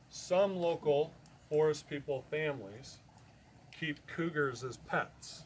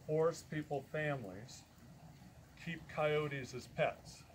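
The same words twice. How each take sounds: First: Some local forest people families keep cougars as pets said slowly with stress on cougars; slow down and land on cougars; corrected restatement. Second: Said in the usual way. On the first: Real, not acted. Correcting himself to the audience, slow with weight on cougars.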